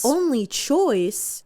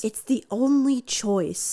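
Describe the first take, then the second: First: Slow, incredulous echo, slightly raised; a touch of outraged disbelief, drawn out. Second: Said in the usual way. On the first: A narrator's reading. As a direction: throw the words back with mild indignation. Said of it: "I raise my voice". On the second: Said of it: "Bob says".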